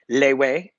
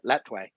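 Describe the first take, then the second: First: The word has no t sound in the middle. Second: The word has a clear t sound in the middle. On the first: This is how locals say it. "Lewe is how they pronounce it there" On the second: This is how foreigners say it. "West foreigners call it Letway"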